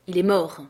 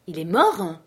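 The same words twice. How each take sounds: First: Said in the usual way. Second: "Il est mort?" thrown out as an almost-scream; near-shout of shock. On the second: A narrator's reading. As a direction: nearly howl the question in disbelief. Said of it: "Je poussai presque un hurlement".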